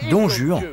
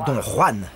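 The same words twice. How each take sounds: First: Juan is said the English way. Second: Juan is said the Spanish way. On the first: This is the pronunciation that makes the poem's rhymes work. The speaker calls it right. "À prononcer Don Juan" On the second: This pronunciation breaks many of the poem's rhymes. The speaker calls it wrong. "et surtout pas Don Juan, sinon il y a plein de rimes qui ne fonctionnent pas"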